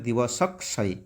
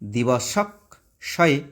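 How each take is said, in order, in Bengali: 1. এটি বিরতি ছাড়া মসৃণভাবে একসঙ্গে বলা হয়। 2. এটি আলাদা আলাদা অংশে, বিরতি দিয়ে বলা হয়। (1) "একসঙ্গে বললে" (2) "ব্র্যাকেটে কীভাবে ভেঙেছি"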